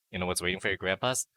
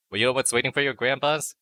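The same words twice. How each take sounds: First: Said in the usual way. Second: Higher, louder teasing setup with a rising end; building up the joke loudly. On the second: Pretend. Teasing the grandpa line to the chat, pitched up and loud.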